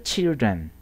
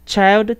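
First: Put-on children as "chil-dren", lower and softer, falling; short i in children. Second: Put-on child with a full "ai" vowel, pitched up at the end. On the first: Teacher answering child with its plural, children low with short i. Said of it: "ここはchildrenっていう音です". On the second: Teacher setting singular against plural, child with a rising ai. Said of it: "アイって音だったけど". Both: Shown as a demonstration.

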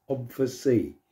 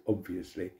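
First: "obviously" clipped to "obvsy", middle syllable swallowed; footballer's obviously. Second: Said in the usual way. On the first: Shown as a demonstration. Mimicking a footballer's favourite saying, clipped pronunciation. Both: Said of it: "They say".

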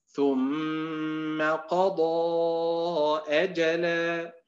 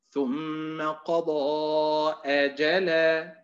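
First: Correct chanted reading. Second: أجلا read as أ + جلا with a question hamza; slow chant of the faulty أجلا; wrong reading. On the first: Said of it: "وليست". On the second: Teacher demonstrates the mistaken question reading of أجلا. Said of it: "وهناك أداء آخر". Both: Shown as a demonstration.

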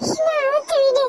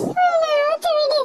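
First: High, tearful untie me; high crying child voice; crying plea. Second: Higher, slower, sobbing untie me; very high, slow wailing child voice; wailing plea. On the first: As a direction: beg through tears. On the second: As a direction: stretch it out in desperate tears. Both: Acted.

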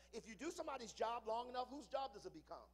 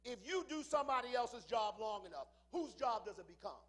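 First: Said in the usual way. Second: Much louder, hammering the question; shouted repeat. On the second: Shown as a demonstration. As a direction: shout it back at the crowd. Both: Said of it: "repeats it louder".

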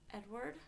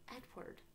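First: "Edward" rising as a question; questioning call. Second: Gentle, tentative calling of a name; soft call. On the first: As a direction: say "Edward" higher, tune lifting at the end. Calls again, gets no answer. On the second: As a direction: softly call his name, higher. Calling to unresponsive man. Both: A narrator's reading.

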